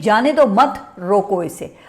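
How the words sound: The pause comes just after the word mat. Do not let it go, stop it. "नुक्ते की जगह को आप तब्दील करके मत के आगे लगा देंगे"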